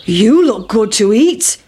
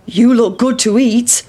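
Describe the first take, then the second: First: Slow, heavy mooing cow voice. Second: Farmer. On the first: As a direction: drawl it like a big cow. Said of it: "shouted the cow". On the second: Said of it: "said the farmer". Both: Acted.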